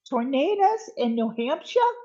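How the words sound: It is said in an imitated New Hampshire accent.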